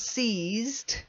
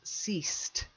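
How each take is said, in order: First: The middle consonant is a buzzing z sound. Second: The middle consonant is a soft s sound. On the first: The speaker calls it wrong. "If you say it with a Z sound, it sounds like seized" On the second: The speaker calls it right. "It's actually a softer s sound"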